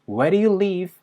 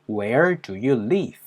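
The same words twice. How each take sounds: First: The d is flapped, almost like "where-you". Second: Each word is said separately with a clear d. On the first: "D 사운드를 많이 굴려주면서 이거를요 거의 where유처럼" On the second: "보다는요"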